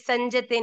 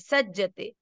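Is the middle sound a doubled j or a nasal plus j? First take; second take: nasal plus j; doubled j. First: The middle has a nasal sound before j. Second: The middle has a doubled j sound. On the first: The speaker calls it wrong. "संजते नहीं है" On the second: The speaker calls it right. "आधा ज पूरा ज"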